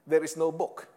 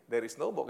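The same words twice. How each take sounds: First: "There" punched louder, rest steady; stress on there. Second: Said in the usual way. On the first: Shown as a demonstration. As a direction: hit "There" hard, then let it land.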